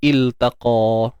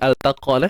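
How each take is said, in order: First: The word begins with an 'i' vowel. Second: The word begins with an 'a' vowel. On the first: The speaker calls it right. "kalau perkataan tunggal ni kita sebut dia iltaqa" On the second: The speaker calls it wrong. "bukan altaqa lah"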